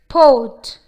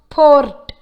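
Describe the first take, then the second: First: The R sound is not pronounced. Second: The R sound is clearly pronounced. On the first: The speaker calls it right. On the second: The speaker calls it wrong.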